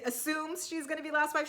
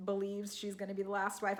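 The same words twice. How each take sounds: First: "assumes" stressed, the line pitched higher; pointed correction. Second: Said in the usual way. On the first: Real, not acted. Recapper doubting the last wife claim, "assumes" stressed high. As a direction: lift the voice and lean on "assumes".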